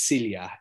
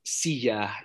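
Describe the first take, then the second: First: An l sound comes before the y sound. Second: There is no separate l before the y. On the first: This is the Tagalog form of the word. "Those double L's become an L-Y" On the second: This is the Spanish form of the word. "Silla is the word for chair in Spanish"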